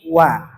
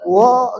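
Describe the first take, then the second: First: The vowel is thin and light, like a. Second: The vowel is thick and dark, like o. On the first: The speaker calls it right. "tapi wa" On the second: The speaker calls it wrong. "wo enggak"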